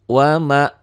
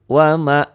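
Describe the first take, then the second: Both takes have the same delivery.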